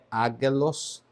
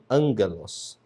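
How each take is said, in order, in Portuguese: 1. A primeira sílaba não tem som nasal. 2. A primeira sílaba tem som de n nasal. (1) "a pronúncia aqui não é ágelos" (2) "o primeiro gama se pronuncia como se fosse um ni, um som de N, N nasal"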